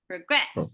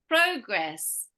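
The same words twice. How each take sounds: First: The stress is on the second syllable. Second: The stress is on the first syllable.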